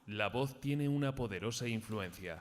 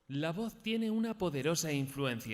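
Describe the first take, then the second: First: It is said at a low pitch. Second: It is said at a high pitch.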